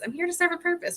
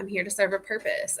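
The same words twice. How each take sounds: First: Same line lifted higher in pitch; higher repeat. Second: Said in the usual way. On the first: Shown as a demonstration. Coach repeating her purpose, pitched up higher. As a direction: say it again up high, light.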